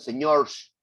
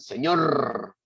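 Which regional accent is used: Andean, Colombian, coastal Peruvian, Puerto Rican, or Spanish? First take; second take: Andean; Colombian. First: It is said in an Andean Peruvian accent. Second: It is said in a Colombian accent. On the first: "en el Ande peruano dicen señors" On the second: "en Colombia dicen señor"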